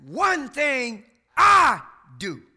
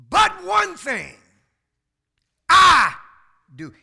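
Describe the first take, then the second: First: Slow, loud "One thing I do" with weight on "I"; stress on I again. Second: "I" punched hard and loud; stress on I. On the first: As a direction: drag it out and hit "I". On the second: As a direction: lean hard on "I", not we. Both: Shown as a demonstration. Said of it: "He didn't say we".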